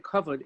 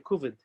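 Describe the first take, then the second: First: It is said with the standard pronunciation. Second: It is said with a Yiddish pronunciation. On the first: "we say kavod" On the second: "people who speak Yiddish, they say ... kuvod"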